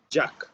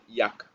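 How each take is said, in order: First: The first consonant is a hard j sound. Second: The first consonant is a soft y sound. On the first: The speaker calls it wrong. "we don't use it like in Spanish. We don't say" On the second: The speaker calls it right. "it is a soft consonant in English sound ... We say yak"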